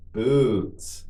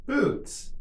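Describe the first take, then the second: First: Drawn-out word for learners; slow model. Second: Much higher, shorter take; quicker model. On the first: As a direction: say it slowly and evenly for repetition. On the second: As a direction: say it quickly on a raised pitch. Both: Shown as a demonstration. Teacher models word for repetition.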